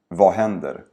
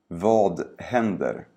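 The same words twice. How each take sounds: First: The sentence is spoken quickly and naturally. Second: The sentence is spoken slowly and carefully. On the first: "and then faster, like a native speaker would" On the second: "first say each sentence slowly"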